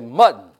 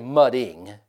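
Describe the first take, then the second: First: The word ends with the -ing sound dropped. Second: The word ends with a full -ing sound. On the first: The speaker calls it right. "You leave the ing off" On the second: The speaker calls it wrong. "you don't say mudding"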